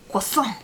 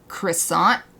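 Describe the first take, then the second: First: It is said with a French pronunciation. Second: It is said with an American English pronunciation. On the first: "I want to say it French style" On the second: "most people I think in America would say"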